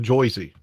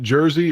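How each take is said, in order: First: The first vowel is an 'oy' sound. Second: The first vowel is a plain 'er' sound. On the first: "or Joycey?" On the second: "Does he pronounce it Jersey"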